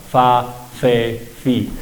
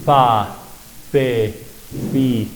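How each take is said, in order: First: "Fa, fe, fi" with upper teeth on lower lip; labiodental F. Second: "Fa, fe, fi" blown through both lips, open gap; bilabial F. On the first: Teacher showing the Spanish F, teeth on lip. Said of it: "la F es un sonido labiodental". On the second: Teacher showing the Muisca F, lips almost together. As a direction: blow "Fa, fe, fi" through nearly closed lips. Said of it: "es un sonido bilabial". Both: Shown as a demonstration.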